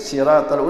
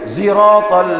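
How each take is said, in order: First: It begins with a plain, light s sound. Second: It begins with a buzzing z sound. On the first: This is another dialect's accepted way to recite it. "ada pakai sin, siratal udah sah bagi dia" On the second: This is a third dialect's accepted way to recite it. "Ada pakai zai"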